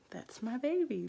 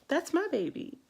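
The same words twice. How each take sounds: First: A little higher, joy starting to break through; growing excitement over the baby; rising joy. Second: Much higher and louder, bursting with joy; overjoyed cry. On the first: Mother first sees newborn daughter, rising joy. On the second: Mother marvels at her newborn, joyful squeal. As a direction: squeal it out in pure delight. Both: Retold or imitated. New mom meeting her baby.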